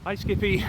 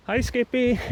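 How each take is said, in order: First: High, softer and winded; gasping out a greeting; gasping for air. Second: High and breathless; puffing out a greeting; out of breath. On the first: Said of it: "I'm so out of breath". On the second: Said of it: "Sorry, I'm so out of breath". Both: Real, not acted.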